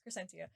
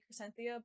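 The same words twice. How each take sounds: First: The name is said without a th sound. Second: The name is said with a th sound. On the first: The speaker calls it right. "There's no th" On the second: The speaker calls it wrong. "My brain wants to say Crescentia"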